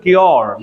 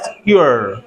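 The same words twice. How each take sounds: First: "क्योर" as kyor, rounded o; usual Indian pronunciation. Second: "cure" as kyoo-er, slow and falling; correct English pronunciation. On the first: Teacher quotes our word for treatment, usual Indian pronunciation. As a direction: give "क्योर" a full o. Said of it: "इलाज को बोलते हैं". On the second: Teacher corrects the local kyor, correct pronunciation. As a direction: glide "cure" slowly from u to er. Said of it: "but that's". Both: Shown as a demonstration.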